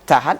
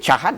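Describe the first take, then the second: First: The word begins with a plain 't' sound. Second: The word begins with a breathy 'ch' sound. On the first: The speaker calls it right. "Misalnya kita ngomong cahat" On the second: The speaker calls it wrong. "menjadi cahat jadinya"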